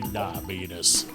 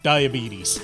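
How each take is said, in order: First: The word is pronounced in an exaggerated, distorted way. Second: The word is pronounced in the ordinary way. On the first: The speaker calls it right. "I'm an internet boomer, so I've got to say diabetes" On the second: The speaker calls it wrong. "Sorry, I'm saying it wrong"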